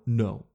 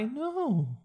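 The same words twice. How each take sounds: First: The pitch is low and falls at the end. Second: The pitch is high and does not fall. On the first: The refusal is firm and final. The speaker calls it right. "I call it the low no, ... The no goes down at the end" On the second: The refusal sounds weak and negotiable. The speaker calls it wrong. "Don't hit them with that high"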